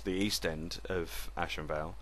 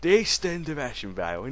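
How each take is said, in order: First: It is said in his plain everyday accent. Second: It is said in a put-on Cockney accent.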